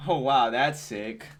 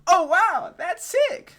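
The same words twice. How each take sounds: First: Slow, understated imitation of excitement; mock enthusiasm. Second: Very high, loud mock-excited squeal; hammed-up enthusiasm. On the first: Gamer mimicking the trailer's presenter, slow understated mock enthusiasm. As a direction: drag out the wow with only mild mock excitement. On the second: Gamer auditioning as the trailer's talker, squealing mock enthusiasm. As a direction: imitate a gushing presenter way up high, full blast. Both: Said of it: "She sounded so enthusiastic about it".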